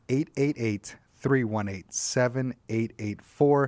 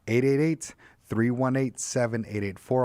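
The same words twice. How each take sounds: First: The number is read more slowly. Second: The number is read at a normal pace.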